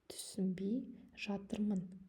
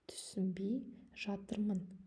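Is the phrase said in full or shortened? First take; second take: full; full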